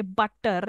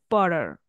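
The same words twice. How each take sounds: First: Said in the usual way. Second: "butter" with a soft tap in place of the T; "butter" softened to "budder"; flapped T. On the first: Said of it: "they don't say". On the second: Shown as a demonstration. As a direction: flap the T in "butter". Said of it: "They give it soft flap to the T".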